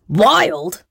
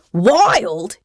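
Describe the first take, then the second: First: Mock shriek, higher and falling at the end. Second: Bawled. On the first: Pirate captain to the flower thief, shrieking. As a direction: shriek it like an outraged storybook captain. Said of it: "shrieked Tomb". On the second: Pirate captain to the flower thief, bawling. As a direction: bawl it like an outraged captain. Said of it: "he bawled". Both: A narrator's reading.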